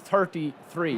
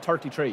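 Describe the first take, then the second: First: Both words begin with a soft 'th' sound. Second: Both words begin with a hard 't' sound. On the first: This is the careful pronunciation made with conscious effort. "if I say like I'm thirty-three" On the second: This is the natural pronunciation of the speaker's Irish accent. "instead of thirty-three"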